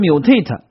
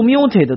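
First: The stress is on the last syllable. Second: The stress is on the first syllable. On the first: The speaker calls it right. "词根把重音让给了它" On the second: The speaker calls it wrong. "没读mutate"

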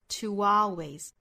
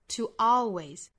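First: The words are linked with a small glide sound. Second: A glottal stop breaks the sound between the words. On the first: "那连读的话要带出这个小的半元音" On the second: "用 glottal stop 的方式，就是 to 和 always 之间不做连读了，声音断开一下"

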